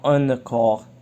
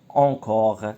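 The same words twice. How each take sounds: First: The first vowel is not the 'on' sound. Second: The first vowel is the nasal 'on' sound. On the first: The speaker calls it wrong. "on dit pas encore" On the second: The speaker calls it right. "le son on, encore"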